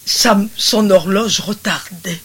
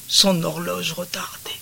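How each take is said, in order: First: Said in the usual way. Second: Softly whispered repeat. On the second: Shown as a demonstration. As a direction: breathe the phrase as a secret.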